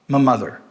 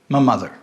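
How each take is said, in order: First: The word 'my' is reduced to a schwa. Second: The word 'my' is reduced to a schwa.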